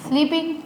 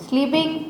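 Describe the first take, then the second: No difference in how they are said.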